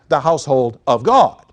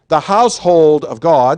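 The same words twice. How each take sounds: First: The word God carries the main stress. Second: The word household carries the main stress. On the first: The focus is on the church as God's dwelling. "emphasizing the second half of the phrase" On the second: The focus is on the family of believers. "so you can emphasize household"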